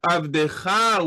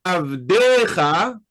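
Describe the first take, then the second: First: Avdecha stressed on the last syllable, avdeCHA; final stress. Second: Avdecha stressed on the DE, slow and firm; penultimate stress. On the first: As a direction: land the accent on the final CHA of Avdecha. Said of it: "with an ultimate accent". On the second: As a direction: lean on the second-to-last syllable of Avdecha, avDEcha. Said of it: "with a penultimate accent". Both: Shown as a demonstration.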